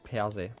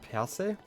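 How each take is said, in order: First: The S is pronounced softer. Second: The S is pronounced sharp and full. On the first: "do you pronounce the S a little bit softer? Like" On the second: "Since you're pronouncing every letter?"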